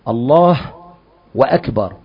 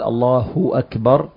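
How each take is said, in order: First: A 'w' sound is inserted before the second word. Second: The first word flows straight into the second word. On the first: It joins the words with 'and' instead of declaring God greatest. The speaker calls it wrong. "لو قال الله وأكبر فجعل الضمة واوا" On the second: It declares that God is greatest. The speaker calls it right. "ما قال الله أكبر"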